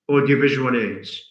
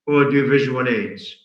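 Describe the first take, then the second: No difference in how they are said.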